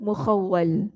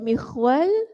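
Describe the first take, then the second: First: Three syllables, beginning with a 'u' vowel. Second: Two syllables, beginning with an 'i' vowel. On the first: "menurut wazan Muhammad" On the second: "mengkasrahkan huruf awalnya mim dan mensukunkan huruf kha"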